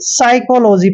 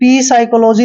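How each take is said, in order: First: The word starts directly with the s sound. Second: A p sound is heard before the s. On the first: The speaker calls it right. "सीधा ही साइकोलॉजी पढ़ते हैं" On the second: The speaker calls it wrong. "कभी भी पी साइकोलॉजी नहीं पढ़ते हैं"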